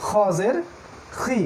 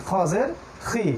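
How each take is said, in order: Both takes have the same delivery.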